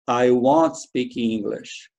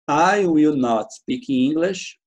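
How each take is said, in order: First: Will not is shortened into one quick word. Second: Will and not are said as two words.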